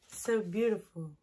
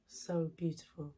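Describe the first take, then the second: First: Said in the usual way. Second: Breathy whisper, barely voiced, softer and lower; whispered praise. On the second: Shown as a demonstration. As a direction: whisper "So beautiful." in awe, no voice at all. Repeats praise, then whispers it.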